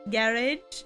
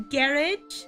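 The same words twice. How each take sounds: First: It is said with a British pronunciation. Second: The same.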